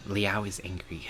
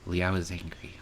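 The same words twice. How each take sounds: First: Hushed, breathy whisper. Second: Said in the usual way. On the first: Acted. Repeating his words to herself in a whisper. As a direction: say it again only on breath.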